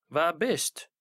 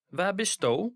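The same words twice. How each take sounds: First: Du merged into bist, no separate du; short merged bist; unstressed st. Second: Du said in full, stressed; full du at the end. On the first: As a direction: let du melt into bist. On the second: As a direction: give du its weight. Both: Shown as a demonstration. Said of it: "sto is stressed and st is non-stressed".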